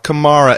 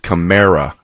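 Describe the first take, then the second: First: The middle does not sound like 'America'. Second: The middle sounds like the middle of 'America'. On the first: The speaker calls it wrong. "It's not Kamara" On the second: The speaker calls it right. "This is Kamara. Kamerica"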